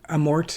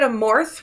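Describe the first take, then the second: First: The name ends with a plain t sound. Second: The name ends with a th sound. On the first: This is how it is said in Italy. "in Italy it's ... with the T at the end" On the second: This is how it is usually said here. "we typically say it Amorth with the with the H on the end"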